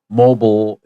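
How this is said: The word is said with an American pronunciation. "is more American English"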